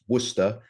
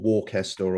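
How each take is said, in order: First: It is pronounced the local English way. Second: It is another pronunciation some Americans might use. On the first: The speaker calls it right. "it's Worcester ... that's the correct way" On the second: The speaker calls it wrong. "or Worcester or whatever, no"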